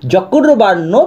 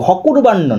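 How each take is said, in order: First: The word begins with a j sound. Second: The word begins with an h sound. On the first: The speaker calls it right. "তখন কিন্তু হয়ের উচ্চারণটা উন্তুষ্ট জ হবে" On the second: The speaker calls it wrong. "হকুর্বাণ্য নয়"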